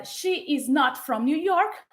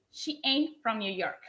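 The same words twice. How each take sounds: First: Said in the usual way. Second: She ain't from New York with ain't said as one word; contracted ain't. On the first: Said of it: "en vez de decir". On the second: Shown as a demonstration. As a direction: contract is not into ain't, said softly. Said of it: "voy a decir".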